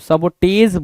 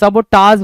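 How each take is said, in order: First: The final syllable has an 'e' vowel. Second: The final syllable has a broad 'aa' vowel. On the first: The speaker calls it wrong. "सबोटेज बोला है" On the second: The speaker calls it right. "सबोटाज बोलना चाहिए था इसको"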